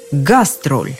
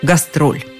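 First: The stress is on the first syllable. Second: The stress is on the second syllable. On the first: This is the original German-style stress. "сначала с немецким ударением" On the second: This is the later Russian stress. "ударение сместилось на второй слог"

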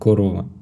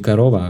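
First: Every o vowel is pronounced fully as o. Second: The unstressed o vowels are reduced toward a. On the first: The speaker calls it right. "Прямо так, строго по буквам, без редуцирования" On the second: The speaker calls it wrong. "Не корова"

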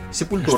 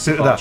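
First: It is said the Portuguese way, all syllables full. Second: It is said the American way, clipped and reduced. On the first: The speaker calls it right. "Сепультура, правильно, португальский язык в Бразилии" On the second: The speaker calls it wrong. "американцы просто ее произносят Сепальч"

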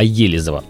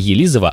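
First: The stress is on the first syllable. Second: The stress is on the third syllable. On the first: The speaker calls it right. "а Елизово. Прошу заметить" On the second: The speaker calls it wrong. "Не Елизово"

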